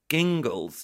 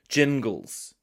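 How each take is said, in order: First: The name starts with a hard G sound. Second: The name starts with a soft J sound. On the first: The speaker calls it wrong. "mispronounce it with a hard G, presumably that's then Gingles" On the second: The speaker calls it right. "the name is Jingles"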